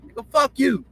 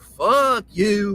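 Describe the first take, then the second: First: Put-on pitched high like a loud young kid; a young boy's high mock taunt. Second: A hint of Southern country drawl on "Fuck you"; lightly drawled Southern country cuss. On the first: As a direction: toss out "fuck you" high and sharp, kid-style. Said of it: "you got a lot of voice when you're kids". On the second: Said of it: "But it be in a country drawl like".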